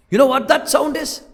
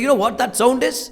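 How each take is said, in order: First: "You know what that sound is?" drawn out slowly, pitched higher and pressed on "know"; slow emphatic question. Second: Said in the usual way. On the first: Shown as a demonstration. Preacher builds suspense for the congregation, slow and emphatic. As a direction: lean in and stretch the question out for the congregation.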